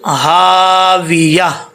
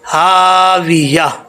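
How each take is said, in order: Both takes have the same delivery.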